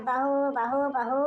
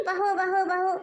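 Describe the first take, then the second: First: Daughter-in-law parrots the old woman's बहू बहू mockingly; mocking imitation. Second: Raised nagging call of bahu; mother-in-law calling बहू बहू with a raised voice. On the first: Daughter-in-law mimics mother-in-law's calling. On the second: Acted. Mother-in-law calls बहू बहू to summon daughter-in-law, raised.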